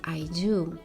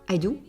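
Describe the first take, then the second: First: The final vowel is drawn out longer. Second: The final vowel is short and clipped. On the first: The speaker calls it right. "So you make it a little bit longer" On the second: The speaker calls it wrong. "Parce que le français c'est court"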